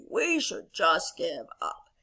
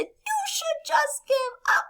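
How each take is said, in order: First: Low, slow, defeated toad; discouraged lowered storybook voice; Toad character voice. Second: Very high, slow bird voice; squeaky storybook taunt; mocking little birds. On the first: Acted. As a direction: give up glumly, dragging it out. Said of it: "Toad returns back to Frog and he says". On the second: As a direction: jeer like a tiny bird. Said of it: "they laugh at Toad and they say".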